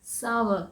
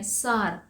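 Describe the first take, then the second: First: सावर said as "sow-er" in two beats; सावर with the "ow" diphthong; सावर like "shower" with an s; correct sour. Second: सार said as a flat "saar"; सार with one long "aa" vowel; सार, the common mistake for sour; wrong sour. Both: Shown as a demonstration. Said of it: "सही pronunciation है सावर".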